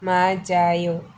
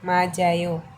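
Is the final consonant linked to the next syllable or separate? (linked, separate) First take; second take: linked; linked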